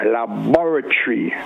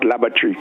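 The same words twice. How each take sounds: First: The 'bor' syllable is clearly pronounced. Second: The 'bor' syllable is dropped or blurred. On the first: The speaker calls it right. "But with a B O R" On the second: The speaker calls it wrong. "not laboratory"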